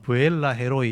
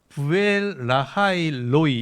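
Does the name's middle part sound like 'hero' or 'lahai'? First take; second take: hero; lahai. First: The middle part sounds like 'hero', two words. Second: The middle part sounds like 'lahai', three words. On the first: This is the Korean rendering of the name. The speaker calls it wrong. "한국 발음은 부엘라 헤로이 이렇게 이제 발음을 쓴 거예요" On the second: This is the original Hebrew pronunciation. The speaker calls it right. "실제로 이제 히브리 발음은 조금 달라요"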